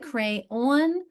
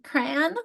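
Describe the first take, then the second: First: It has two syllables, the second like dawn. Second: It is squeezed into a single syllable. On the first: "where the second syllable rhymes with dawn" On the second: "is it one syllable, as in crayon?"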